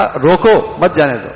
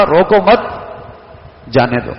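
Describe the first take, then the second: First: "روکو" cut off alone, then "مت جانے دو"; pause after روکو. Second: "روکو مت" as one phrase, long break, "جانے دو"; pause after مت. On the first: What we told the guard, pause after روکو. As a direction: join "مت" to "جانے دو" after a break. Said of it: "ہم نے اس سے کہا". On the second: How the guard read it, pause after مت. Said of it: "اس نے اسے پڑھا". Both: Shown as a demonstration.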